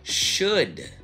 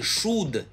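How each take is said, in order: First: The vowel is short, relaxed and unrounded. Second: The vowel is a tense, tightly rounded oo. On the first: The speaker calls it right. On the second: The speaker calls it wrong.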